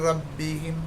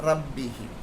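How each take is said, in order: The two takes are said the same way.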